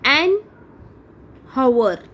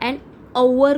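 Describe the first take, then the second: First: The word begins with an audible h sound. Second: The word begins with a vowel, no h sound. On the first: The speaker calls it wrong. "An हवर आपण म्हणतो का" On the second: The speaker calls it right. "An अवर म्हणतो"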